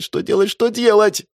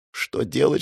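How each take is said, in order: First: High frantic что делать repeated; rising panic. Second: Said in the usual way. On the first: A narrator's reading. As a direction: let the panic take over. Panic rising in his head. (паника, высоким голосом)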